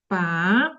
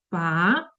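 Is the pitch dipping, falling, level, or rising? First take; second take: rising; rising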